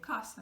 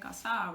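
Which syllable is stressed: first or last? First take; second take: first; last. First: The stress is on the first syllable. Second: The stress is on the last syllable. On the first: The speaker calls it right. "we say casa because it's ending in vowel" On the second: The speaker calls it wrong. "We don't say casa"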